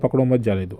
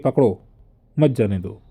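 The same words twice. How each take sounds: First: The pause comes right after 'mat'. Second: The pause comes right after 'pakdo'. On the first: It is an order to let them go. "यहाँ पर छोड़ देने का आदेश हुआ" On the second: It is an order to stop them from leaving. "मत जाने दो रोकने का आदेश हो गया"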